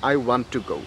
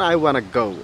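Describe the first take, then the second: First: "Want to" is said as two full words. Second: "Want to" is squeezed into "wanna."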